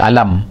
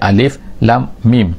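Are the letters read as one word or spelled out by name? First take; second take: one word; spelled out. First: The letters are read together as one short word. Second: Each letter is said by its full name. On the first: This is how the letters would normally be read. "dia tak baca alam" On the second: This is the unusual way the Quran reads it. "dia baca alif lam mim"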